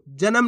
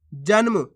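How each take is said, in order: First: जन्म as ja-nam; full-letter misreading. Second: जन्म with न joined to म, jan-mu; no vowel between न and म in जन्म; half-letter pronunciation. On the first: Teacher rejects this reading, जन्म with full न. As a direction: put a vowel after न in जन्म. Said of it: "नहीं". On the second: Teacher answers how to read it, जन्म with half न. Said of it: "कैसे पढ़ेंगे उसको अपन". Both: Shown as a demonstration.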